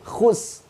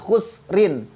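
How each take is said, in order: First: The word stops short with no ending sound. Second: The word ends with a pronounced -rin sound. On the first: The speaker calls it right. "tetapi khus" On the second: The speaker calls it wrong. "bukan khusrin"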